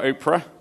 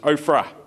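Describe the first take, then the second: First: The middle sound is a plain P. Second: The middle sound is an F. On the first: The speaker calls it wrong. "not Oprah, as I first thought it was" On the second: The speaker calls it right. "but it's Ophrah"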